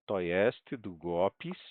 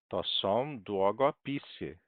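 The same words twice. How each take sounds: First: "długopis" with the middle syllable go stressed. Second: "długopisy" said slowly, stress moved onto pi. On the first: Teacher contrasting singular with plural, stress on go in "długopis". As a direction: lean on go in "długopis". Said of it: "a sílaba tônica". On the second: Teacher showing the plural shifts stress, onto pi in "długopisy". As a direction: draw out "długopisy", leaning on the syllable pi. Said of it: "A sílaba tônica agora é o pi". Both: Shown as a demonstration.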